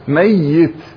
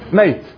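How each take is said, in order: First: The middle y sound is doubled and held longer. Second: The middle y sound is short, not doubled. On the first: Someone who has not died yet but will. "أما اللي لا هو حي ولا هو ميت أو بعد ما ميت لكن سيموت" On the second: Someone who has already died. "الميت ومنتهي شو نسميه؟"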